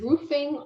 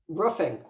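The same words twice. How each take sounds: First: The first vowel is a long ooh sound. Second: The first vowel is a short uh sound. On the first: "I I go with the ooh" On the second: "So it's an uh sound"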